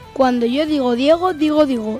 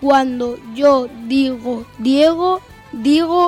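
First: The phrase is spoken at a medium pace. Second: The phrase is spoken at a slow pace. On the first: "Velocidad normal" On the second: "Velocidad lenta"

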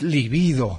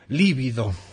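First: The stress is on the second syllable. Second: The stress is on the first syllable. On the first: The speaker calls it right. "Y es libido, me corrige bien Victoria" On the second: The speaker calls it wrong. "Yo anduve diciendo líbido"

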